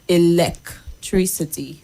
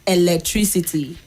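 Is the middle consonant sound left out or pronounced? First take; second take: pronounced; left out. First: A consonant sound in the middle is pronounced. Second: A consonant sound in the middle is dropped. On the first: The speaker calls it right. "it's electricity. There's a C there" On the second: The speaker calls it wrong. "So it's not electricity"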